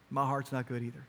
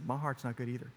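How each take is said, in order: First: Put-on gentle confession to child. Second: The same confession said softer and closer; softer tender repeat. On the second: Retold or imitated. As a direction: lean in and say it softly again. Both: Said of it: "and I said".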